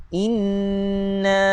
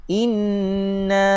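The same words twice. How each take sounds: Both takes have the same delivery.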